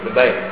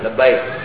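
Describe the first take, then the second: First: The first vowel is a reduced 'e' sound. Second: The first vowel is a full open 'a'. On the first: "orang Betawi, masih memakai ini" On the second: "Ini jawaban terbaik dari sebuah panggilan"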